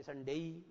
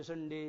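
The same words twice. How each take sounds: First: "संडे" ending in day with an i-glide; English diphthong ending. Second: "संडे" ending in a plain e; "संडे" closed on a single vowel; everyday Indian pronunciation. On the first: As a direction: say "संडे" as sun-DEI. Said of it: "पर ऐसा करना चाहिए". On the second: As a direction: say "संडे" with no i-glide at the end. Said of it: "आप इसको डे बोलते हो". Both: Shown as a demonstration.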